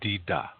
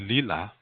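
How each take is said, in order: First: The word is said with D sounds. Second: The word is said with L sounds. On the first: This is the Dakota dialect form. "Dakota people say dida" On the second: This is the Lakota dialect form. "when we say lila"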